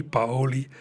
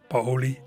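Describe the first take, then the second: First: Paoli run together as po-li; Paoli corrected. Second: Paoli as three syllables, pa-o-li; careful letter-by-letter Paoli; Paoli spelled out. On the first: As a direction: say Paoli short and smooth, po-li, as a correction. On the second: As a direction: say Paoli with both vowels apart, pa-o-li. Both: Shown as a demonstration.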